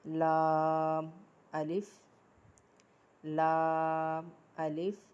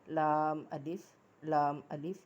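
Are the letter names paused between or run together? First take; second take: paused; run together. First: Short pauses separate the letter names without breaths. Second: The letter names run together without any pauses. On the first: Each letter is articulated fully before the next begins. The speaker calls it right. "ज़रा रुक कर पढ़ना है। ... वो इसलिए मैं रुकी हूँ" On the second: The previous letter is not articulated fully. The speaker calls it wrong. "इसको ऐसे नहीं हमने पढ़ना"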